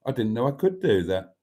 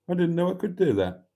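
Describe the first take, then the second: First: Said in the usual way. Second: A quick, higher West Country Gloucestershire accent. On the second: Shown as a demonstration. Host obliges a viewer's request with a Gloucestershire accent. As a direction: rattle it off fast in a Gloucestershire accent. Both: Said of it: "do your Gloucestershire accent Fred West impression".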